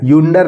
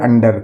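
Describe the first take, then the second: First: It begins with a 'yoo' sound. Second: It begins with an 'uh' sound. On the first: The speaker calls it wrong. "यूंडर नहीं पढ़ेंगे" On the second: The speaker calls it right. "इसको पढ़ेंगे अंडर"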